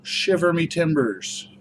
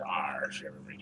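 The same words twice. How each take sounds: First: Slow, high pirate call. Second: Low, soft pirate growl. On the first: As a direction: draw out Shiver Me Timbers like a pirate. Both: Pretend. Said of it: "I'm gonna use the pirate voice".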